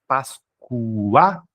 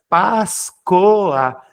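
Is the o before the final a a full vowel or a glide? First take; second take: glide; full vowel. First: The o is a weak glide, like u. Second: The o is a full, separate vowel. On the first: "pronúncia fraca, átona, semivocálica U" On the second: "você pronunciou o O como O"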